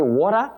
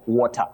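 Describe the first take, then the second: First: The middle consonant sounds like an R. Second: The middle consonant is a clear T. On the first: This is how it is said in northern America. "it comes out as if it is letter R" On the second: This is the standard pronunciation. "the standard pronunciation of that word is simply water"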